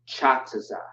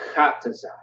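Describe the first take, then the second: First: It begins with a ch sound. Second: It begins with a hard k sound. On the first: The speaker calls it wrong. "not Chataza" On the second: The speaker calls it right. "Kataza, not Chataza"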